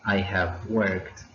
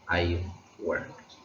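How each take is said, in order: First: The verb have is said in full. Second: The verb have is contracted to ve. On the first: "instead of saying I have worked" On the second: "we tend to say I've worked"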